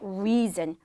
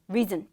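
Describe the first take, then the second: First: The first vowel is said long and drawn out. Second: The first vowel is said short and clipped. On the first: The speaker calls it right. "re 길게 발음하는 거" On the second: The speaker calls it wrong. "짧게 가져가 주시는 게 아니라"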